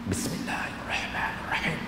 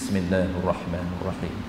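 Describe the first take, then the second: First: It is voiced faintly, with the letters unclear. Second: It is voiced fully, with every letter clear. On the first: It still counts only as whispering, not reading. The speaker calls it wrong. "Itu dinamakan berbisik" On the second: It counts as proper reading. The speaker calls it right. "Lantunkan vokal kita sehingga jelas makharijul huruf di telinga kita"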